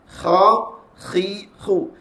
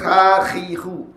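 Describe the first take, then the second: First: The kh sound is heavy and full. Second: The kh sound is light and lowered. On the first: The speaker calls it right. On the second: The speaker calls it wrong.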